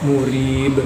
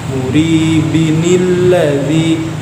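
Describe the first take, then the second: First: The word ends on an echoing b sound. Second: The word continues with -in into the next word. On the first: The reader pauses on this word. "diwaqaf murib menjadi qalqalah kubra" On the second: The word is joined to the next word. "diwasalkan dengan huruf nun"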